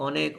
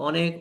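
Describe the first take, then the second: The two takes are said the same way.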